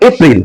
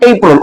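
First: এপ্রিল said "e-pril" with a clear i; local Bengali pronunciation. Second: এপ্রিল said "EI-prol"; British pronunciation. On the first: Teacher showing how we say it, local pronunciation. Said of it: "আমরা যারা আছি উচ্চারণ করি". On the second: Teacher contrasting with our way, British pronunciation. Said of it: "ব্রিটিশরা এটা উচ্চারণ করে". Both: Shown as a demonstration.

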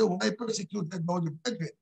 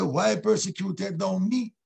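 First: Said in the usual way. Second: Slow question landing on a drawn-out "me"; slow down and make "me" the point; stress on "me". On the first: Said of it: "He didn't say". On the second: Shown as a demonstration. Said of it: "God said".

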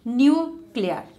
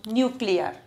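First: "Nuclear" split as nu, pause, clear; syllable by syllable. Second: Said in the usual way. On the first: Shown as a demonstration. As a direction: break "Nuclear" into two beats. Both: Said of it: "two syllable word".

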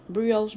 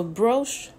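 First: Brioche said with three syllables, bree-oh-sh; the French way. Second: Broche said as one syllable, brosh, no i sound; Southern one-syllable way. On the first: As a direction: say brioche fully as bree-ohsh, keeping the i. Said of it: "Broche, brioche". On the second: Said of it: "I'ma just say it how I know how to say it". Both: Shown as a demonstration.

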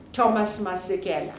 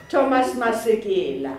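First: "Masekela" said the American way, as "MAS-ih-kel"; Americanized "Thomas Masekela", fast; American accent. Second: "Masekela" said the South African way, "ma-se-GE-la"; "Thomas Masekela" with all four syllables, Sesotho style; proper pronunciation. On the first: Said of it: "I'm doing the American accent". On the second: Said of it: "I'm doing the American accent, sorry". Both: Real, not acted.

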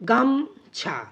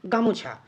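First: গামছা as two held beats, গাম, then ছা; two-beat split. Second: Said in the usual way. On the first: Shown as a demonstration. Teacher shows our tendency with গামছা, split in two beats. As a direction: break গামছা cleanly after গাম. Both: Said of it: "এভাবে আমরা উচ্চারণ করার".

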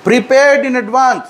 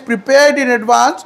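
Both takes have the same delivery.

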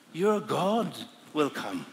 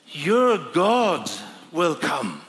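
First: Slow, softer "your God will come" in awe; hushed realization. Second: "Your God" punched louder, falling; emphatic quote. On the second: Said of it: "what was it it said?". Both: Shown as a demonstration.

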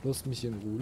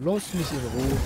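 First: Said in the usual way. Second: Lass mich in Ruhe loud and fed up, pitch rising at the end; louder annoyed repeat. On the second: Real, not acted. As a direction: snap it a second time, louder. Annoyed at game character, repeats.

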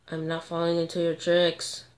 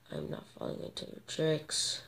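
First: Said in the usual way. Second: Sly whispered taunt; voiceless cunning whisper. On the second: Real, not acted. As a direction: hiss it under your breath.

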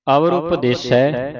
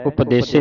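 First: ਉਪਦੇਸੈ ending in open "sai"; correct vowel. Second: ਉਪਦੇਸੇ ending in closed "se"; quick ਉਪਦੇਸੇ with a plain "e" at the end; wrong vowel. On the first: Teacher models the line for the class, correct vowel. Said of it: "ਉਪਦੇਸੈ ਦਲਾਵਾਂ ਲੱਗੀਆਂ". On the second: Teacher shows what not to read, wrong vowel. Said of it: "ਨਹੀਂ ਪੜ੍ਹਨਾ". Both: Shown as a demonstration.

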